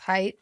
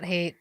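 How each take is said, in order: First: The vowel sounds like the one in bite. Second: The vowel sounds like the one in late. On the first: The speaker calls it right. "It's height" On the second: The speaker calls it wrong. "not hate, which I've been mispronouncing"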